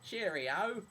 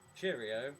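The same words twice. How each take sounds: First: It is said in an exaggerated Cockney accent. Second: It is said in a plain, ordinary accent.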